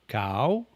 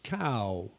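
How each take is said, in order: First: The word is said on a rising tone. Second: The word is said on a falling tone. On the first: "Rising tone is cow" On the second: "A falling tone is cow"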